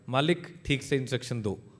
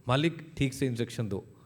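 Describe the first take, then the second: No difference in how they are said.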